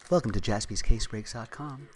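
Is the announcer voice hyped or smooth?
smooth. A soft, calm, smooth public radio voice. "Or we can go like smooth NPR voice"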